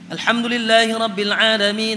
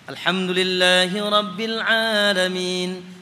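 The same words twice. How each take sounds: First: It is recited quickly with little lengthening. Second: It is recited at a measured, moderate pace. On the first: "lebih cepat daripada tartil" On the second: "Itu tartil"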